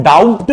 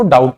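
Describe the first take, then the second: First: डाउट misread as "daubt" with the B sounded; wrong reading with B. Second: डाउट said "dowt" with no B; silent B. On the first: Teacher shows students the wrong reading, B sounded in डाउट. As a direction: pronounce the B in डाउट, "dowb-t". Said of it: "इसको हम डाउट नहीं पढ़ते हैं". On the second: Teacher corrects to the right reading, B silent in डाउट. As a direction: drop the B in डाउट, low falling "dowt". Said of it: "इसको डाउट पढ़ते हैं". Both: Shown as a demonstration.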